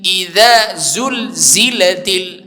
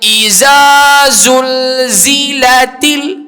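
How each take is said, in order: First: The z sound is said with audible air. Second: The z sound is said without audible air. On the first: The speaker calls it right. "adanya angin di situ pada huruf zai" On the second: The speaker calls it wrong. "Tak boleh"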